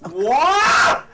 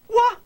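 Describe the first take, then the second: First: The vowel is stretched out long and intense. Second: The vowel is short and quick. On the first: The speaker is extremely flabbergasted. "the more flabbergasted you are, you can add additional A" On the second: The speaker is only ordinarily surprised. "if it's an ordinary case of uh, being surprised"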